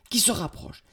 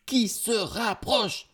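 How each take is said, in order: First: High, tense narration; raised suspenseful voice; mounting alarm. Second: High, slow, heightened suspense; very high, slowly intensified warning; drawn-out alarm. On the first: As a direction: tell of danger closing in. Narrator builds the threat, first take. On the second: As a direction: stretch each syllable as danger looms. Narrator repeats, threat much closer. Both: A narrator's reading.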